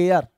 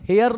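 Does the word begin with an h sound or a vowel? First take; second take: vowel; h sound. First: The word begins with a vowel sound. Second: The word begins with an h sound. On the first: The speaker calls it right. "बल्कि हम इसे जो है एयर पढ़ने का काम करते हैं" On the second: The speaker calls it wrong. "इसे हम हेयर नहीं पढ़ते हैं"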